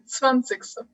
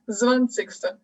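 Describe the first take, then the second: First: The first sound is a hard ts. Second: The first sound is a soft z. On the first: The speaker calls it right. "mais zwanzigste" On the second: The speaker calls it wrong. "c'est pas zwanzigste"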